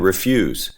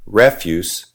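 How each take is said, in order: First: "refuse" as re-FYOOZ, stressed on the second syllable; slow, hit FUSE in "refuse", ending in a z sound; the verb "refuse", re-FYOOZ. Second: "Refuse" as REF-yoos, stressed on the first syllable; slow, hit REF in "Refuse", ending in an s sound; the noun "Refuse", REF-yoos. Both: Shown as a demonstration. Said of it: "I should be stressing a different syllable".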